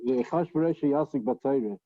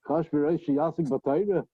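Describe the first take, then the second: First: It ends falling, like a statement. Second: It ends rising, like a question.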